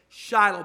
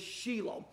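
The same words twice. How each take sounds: First: The name is pronounced the Western way. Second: The name is pronounced the Israeli way. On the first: "in the West we say Shiloh" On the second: "in Israel they say the proper pronunciation is Shiloh"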